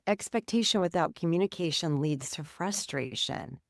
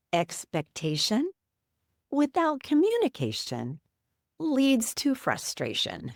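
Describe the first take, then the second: First: Said in the usual way. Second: Slow, drawn-out words with a grin in the voice; grinning slow saying. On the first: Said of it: "but that's the truth". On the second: Retold or imitated. Husband grinning through the window screen at his wife, slow proverb delivery. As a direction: deliver it slowly like a proud little proverb. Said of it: "He gets a big smile on his face".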